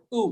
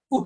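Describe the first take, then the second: First: "উ" drawn out as "oo"; long u. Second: "উ" cut very short; a quick "উ", like the vowel in "put". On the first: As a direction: hold the vowel "উ" long. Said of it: "উটা আমরা টানবো". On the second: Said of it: "আমরা যখন short উ". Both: Shown as a demonstration.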